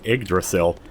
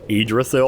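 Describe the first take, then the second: First: The G sound is pronounced in the word. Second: The G sound is left silent in the word. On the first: The speaker calls it wrong. "I think I'm pronouncing it wrong, because I've been saying" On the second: The speaker calls it right. "the G is silent, so it's more like"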